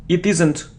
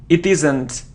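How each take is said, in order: The two takes are said the same way.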